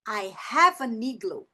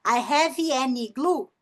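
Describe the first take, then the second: First: Flowing "I hava nigloo"; linked rhythm. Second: Slow, word-by-word "have-ee, an, igloo"; unlinked words. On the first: Teacher showing the connected version, linked. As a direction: join "have an igloo", the N starting "igloo". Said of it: "o ritmo da fala mudou". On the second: Teacher showing what to avoid, word by word. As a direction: keep "have", "an" and "igloo" separate, slowly. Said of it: "Em vez de eu falar". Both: Shown as a demonstration.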